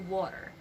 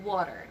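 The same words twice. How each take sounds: First: The middle consonant is a soft D-like tap. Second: The middle consonant is a soft D-like tap.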